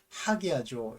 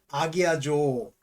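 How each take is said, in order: First: The word begins with an h sound. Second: The word begins directly with a vowel. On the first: The speaker calls it right. "아포스트로피가 역으로 붙었기 때문에 하기아조 이렇게 봅니다" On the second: The speaker calls it wrong. "아기아조라고 하면 안 되고"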